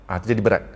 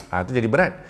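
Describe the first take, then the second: Both takes have the same delivery.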